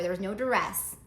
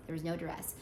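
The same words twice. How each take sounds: First: Said in the usual way. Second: A quiet, lower legal-disclaimer aside; There was no duress said softer and lower as a disclaimer. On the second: Shown as a demonstration. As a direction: drop the voice and repeat it for the record. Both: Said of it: "Gotta say that for legal reasons".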